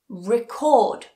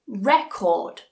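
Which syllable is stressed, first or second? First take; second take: second; first. First: The stress is on the second syllable. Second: The stress is on the first syllable. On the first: It is used as a verb. "This is the verb" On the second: It is used as a noun. "This is the noun"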